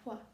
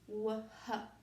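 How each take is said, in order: First: One single combined sound is said. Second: Two separate sounds are said one after another. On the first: The speaker calls it right. "We say wh. It's a completely new sound" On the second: The speaker calls it wrong. "we don't say w h"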